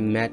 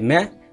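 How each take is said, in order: First: The final t is clearly pronounced. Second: The final t is dropped and silent.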